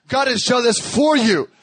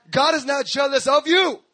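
First: "for" punched loud and drawn out; stress on FOR. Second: "of you" pushed high in denial; stress on OF YOU. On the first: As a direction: slowly correct it, hitting "for" hard. Corrects "of you" to "for you. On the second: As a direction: deny it firmly, leaning on "of you". Contrasts "of you" with "for you. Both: Shown as a demonstration.

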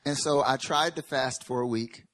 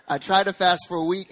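First: Tried stretched and leaned on; stress on tried. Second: Tried lifted higher and louder; stress on tried. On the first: Preacher telling the church he tried to fast, tried weighted. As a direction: lean hard on tried. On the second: Retelling the failed fast to the church, tried pushed high. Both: Shown as a demonstration. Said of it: "Emphasis on tried".

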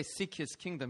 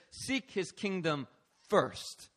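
First: Said in the usual way. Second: "first" set apart after a pause and punched; slow build, then land firmly on "first"; stress on "first". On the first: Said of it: "He doesn't say". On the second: Shown as a demonstration. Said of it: "He says".

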